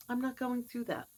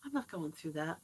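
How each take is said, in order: First: Said in the usual way. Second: Muttered to herself, much softer; soft, almost under the breath; half to herself, low and soft; quiet. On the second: Shown as a demonstration.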